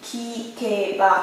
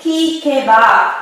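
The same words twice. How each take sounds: First: Kikeba repeated much softer, slow; lặp lại kikeba nhỏ và chậm. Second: Said in the usual way. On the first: Shown as a demonstration. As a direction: say kikeba again, quietly and slowly, as a model. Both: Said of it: "Càng nghe là gì ạ?".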